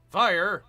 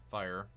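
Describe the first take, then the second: First: Loud, higher impatient command; shouted order. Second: Said in the usual way. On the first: Real, not acted. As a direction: yell it at a unit that won't respond. Repeats order when unit won't fire.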